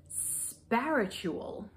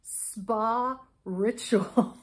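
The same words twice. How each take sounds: First: "Sparitual" drawn out as one word, like spiritual; misread name. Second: "Spa Ritual" as two separate words, very slow; louder, deliberate "Spa Ritual" in two parts; corrected reading. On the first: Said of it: "That was a bad read". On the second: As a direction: split "Spa Ritual" clearly, spa then ritual. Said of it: "I now realize it is". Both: Shown as a demonstration.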